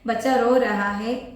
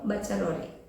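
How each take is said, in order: First: Every word of the phrase is pronounced separately. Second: The last words run together into one short word. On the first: "എന്നൊക്കെയാണ് അതിന്റെ full" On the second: "നമ്മൾ commonly പറയുമ്പോൾ"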